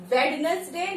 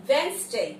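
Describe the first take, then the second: First: Wednesday with every syllable, WED-nes-day; WED-nes-day, spoken as spelt; wrong Wednesday. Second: Wednesday as WENZ-day; two-syllable WENZ-day, silent d; correct Wednesday. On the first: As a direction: sound the first d in Wednesday. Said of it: "नहीं होता". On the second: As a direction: drop the d in Wednesday. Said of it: "डी is silent". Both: Shown as a demonstration.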